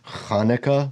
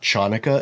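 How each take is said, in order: First: The word begins with a breathy 'h' sound. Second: The word begins with an English 'ch' sound. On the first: The speaker calls it right. "it's Hanukkah" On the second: The speaker calls it wrong. "It's not Chanukah"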